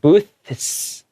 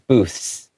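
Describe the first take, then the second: First: The TH sound is clearly separated before the S. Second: The TH sound is mostly lost before the S. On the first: "kind of have to separate it. Booths, like that" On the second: "if you read it really quickly, sometimes the T H will be lost a little bit. It'll go booths"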